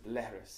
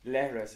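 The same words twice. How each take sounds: First: Leithris with an extra unwritten vowel, leh-her-is; inserted vowel. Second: Said in the usual way. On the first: Shown as a demonstration. Guest demonstrates Munster leithris, with an inserted vowel. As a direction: slip a helper vowel into leithris. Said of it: "there's a vowel in there that's not actually written". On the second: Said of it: "In Munster, leithris is pronounced leithris".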